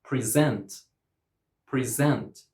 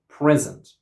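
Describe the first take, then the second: First: "present" as pri-ZENT; second-syllable stress. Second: "present" as PREZ-ent, louder first syllable; first-syllable stress. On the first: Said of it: "stress on the second syllable". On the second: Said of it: "stress on the first syllable". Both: Shown as a demonstration.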